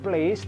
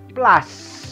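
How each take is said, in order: First: It is said like the English word place. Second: It is said with a short a, like plas. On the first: The speaker calls it wrong. "bukan place" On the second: The speaker calls it right. "tapi plus"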